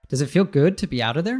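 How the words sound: The pitch rises at the end. It is a real question. "he's not saying"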